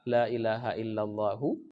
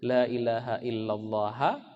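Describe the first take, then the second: First: The last word ends with a u vowel. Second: The last word ends with an a vowel. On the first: "Allahu itulah khabarnya" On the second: "Illallaha kah"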